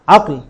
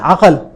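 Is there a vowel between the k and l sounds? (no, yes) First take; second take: no; yes. First: No vowel is sounded between the k and l. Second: A vowel is sounded between the k and l. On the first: The speaker calls it right. "इसका दुरुस्त तलफ़ुज़ और सही तलफ़ुज़ यही है" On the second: The speaker calls it wrong. "इसको हम पढ़ते हैं अकल। अकल लफ्ज गलत है"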